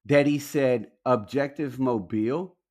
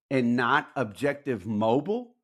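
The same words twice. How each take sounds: First: "Mobile" stressed on the end, like the Alabama city; "Mobile" said MO-beel; Objective Mobile with his accent. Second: "Mobile" as MO-bul, the common American way; "Mobile" said MO-bul, flat; usual American Mobile. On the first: Retold or imitated. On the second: Shown as a demonstration. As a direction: say "Objective Mobile" with "Mobile" rhyming with noble. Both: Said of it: "every other American ... says mobile".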